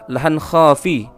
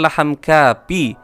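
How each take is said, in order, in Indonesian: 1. Kata kedua diawali dengan bunyi kh serak. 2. Kata kedua diawali dengan bunyi k biasa. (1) "akan tetapi menggunakan huruf kha. Yang benar adalah" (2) "bukan laham kapi, bukan menggunakan huruf kap"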